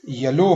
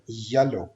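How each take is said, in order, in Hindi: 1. Stress दूसरे syllable पर है। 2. स्ट्रेस पहले सिलेबल पर है। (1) "हम नहीं बोलेंगे" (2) "फर्स्ट सिलेबल पे स्ट्रेस देना है"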